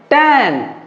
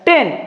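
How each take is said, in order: First: The vowel sounds like the a in tan. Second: The vowel sounds like the e in ten. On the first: The speaker calls it right. "ये टैन है" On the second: The speaker calls it wrong. "आप लोगों का जो pronunciation होता है टेन"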